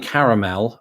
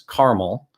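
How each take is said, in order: First: Every syllable is pronounced strongly and fully. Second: Not every syllable is pronounced fully. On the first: "the strong pronunciation over each syllable there" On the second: "where I lived in the Midwest, or particularly in Indiana, it was caramel"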